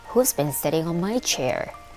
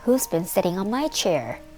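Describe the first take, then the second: First: The voice is deep, loud and gruff. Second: The voice is high, small and squeaky. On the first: A big, imposing figure is speaking. "Boomed Big Father Bear in his great gruff voice" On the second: A small child is speaking. "Cried little baby bear in his squeaky little voice"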